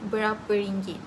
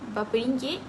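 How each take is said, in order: First: The first word has all three syllables. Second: The first word is shortened to two syllables. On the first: This is the standard careful form. "instead of" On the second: This is the casual everyday form. "people usually use"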